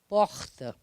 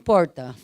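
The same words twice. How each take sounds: First: The R is pronounced without curling back. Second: The R is curled back, caipira style. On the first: This is the form others consider correct. The speaker calls it right. "Como que é o certo de porta? É porta" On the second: This is how the speaker naturally talks. The speaker calls it wrong. "eu falo porta, mas não tem jeito de eu não falar"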